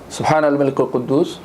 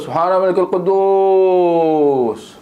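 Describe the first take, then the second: First: It is said plainly, without melodic ornament. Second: It is said with a swaying, ornamented melody. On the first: The speaker calls it right. "secara bersahaja" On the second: The speaker calls it wrong. "ini lenggok-lenggok semua ni"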